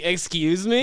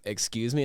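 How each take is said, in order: First: High, louder retold disbelief; incredulous. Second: Said in the usual way. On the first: Replaying his answer to the officers' accusation, incredulous. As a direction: act out being shocked by the accusation. Reaction to drug supplying accusation.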